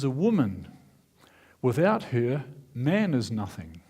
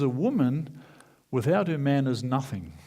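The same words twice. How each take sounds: First: It has pauses after woman and after her. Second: It is said as one phrase without pauses.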